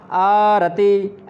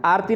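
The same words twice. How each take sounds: First: आरती slowly, आ-र-ती with a full र; आरती drawn out, every syllable clear; slow clear pronunciation. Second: आरती clipped to आर्ती; the wrong आरती, quick, र swallowed; आरती squashed into two syllables; wrong pronunciation. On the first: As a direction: model आरती slowly and cleanly. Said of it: "आरती ऐसे बोलना है". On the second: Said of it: "आरती नहीं बोलना है". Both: Shown as a demonstration.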